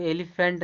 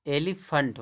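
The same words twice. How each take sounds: First: "एलिफेंट" ending in a clear -fent; wrong pronunciation. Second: "एलिफेंट" ending in a weak -funt; "एलिफेंट" with uh in the last syllable; correct pronunciation. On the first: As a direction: say "एलिफेंट" with a full e in the last syllable. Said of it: "नहीं होता". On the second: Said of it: "इसको पढ़ा जाता है". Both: Shown as a demonstration.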